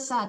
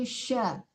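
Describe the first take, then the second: First: The syllable starts with a plain s sound. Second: The syllable starts with an sh sound. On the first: The speaker calls it wrong. "Jangan sa" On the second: The speaker calls it right. "tapi sya"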